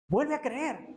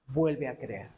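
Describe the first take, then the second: First: "Vuelve a creer" más agudo, con caída final; exhortación insistente. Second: Muy grave y calmado; invitación serena. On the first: Repite la invitación con urgencia. (exhortación aguda e insistente) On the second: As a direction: invita con calma, dejando caer la voz. Invitación de Dios, primera toma. (invitación grave y serena) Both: Acted.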